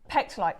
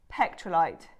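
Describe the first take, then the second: First: No R sound follows the T. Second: An R sound follows the T. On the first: The speaker calls it right. "I always have the R in" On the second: The speaker calls it wrong. "I always say this wrong"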